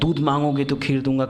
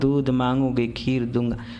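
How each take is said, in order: First: It is said with loud, fiery enthusiasm. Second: It is said flatly, without any enthusiasm. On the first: The speaker calls it right. "तुरंत जोश में बोला जाता है, उत्साह में।" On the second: The speaker calls it wrong. "अच्छा ही नहीं लगेगा।"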